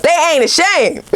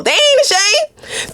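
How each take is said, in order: First: Said in the usual way. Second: "ain't" stretched way up high and slow; high, slow and playful. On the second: Shown as a demonstration. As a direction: tease it high and drawn out. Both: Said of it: "this person has no shame at all".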